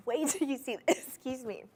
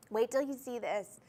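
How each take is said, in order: First: Laughing. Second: Said in the usual way. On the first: Real, not acted. Laughs while teasing next ring.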